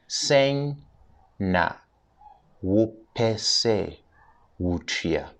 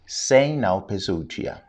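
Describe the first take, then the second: First: It is said slowly. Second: It is said at normal speed.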